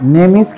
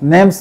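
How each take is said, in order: First: It is said as two full words, name is. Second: It is said as one contracted word, name's. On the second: "সংক্ষেপে নেমস নেমস বলা যায়"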